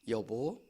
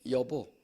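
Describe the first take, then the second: The two takes are said the same way.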